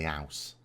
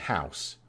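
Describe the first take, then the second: First: The word begins without any h sound. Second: The word begins with a clear h sound. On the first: "we drop H's" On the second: "instead of saying"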